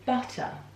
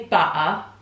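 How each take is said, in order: First: The middle T is clearly pronounced. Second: The middle T is dropped or swallowed. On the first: The speaker calls it right. "say butter, because it's better" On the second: The speaker calls it wrong. "don't say butter"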